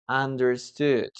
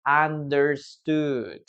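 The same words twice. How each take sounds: First: Said in the usual way. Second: Understood drawn out slowly, syllable by syllable; slow model word. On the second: Shown as a demonstration. Teacher slowly models Understood for students. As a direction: say Understood slowly so the class can copy. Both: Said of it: "there it is, right?".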